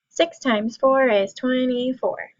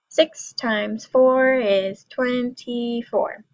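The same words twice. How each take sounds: First: It is said fastest of all. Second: It is said a little faster.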